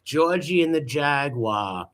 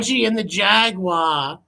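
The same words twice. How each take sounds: First: Said in the usual way. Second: Slow, lifted storybook reading; mock storybook announcer; storybook title. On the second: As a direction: announce it like a children's book title. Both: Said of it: "That sounds like a children's book".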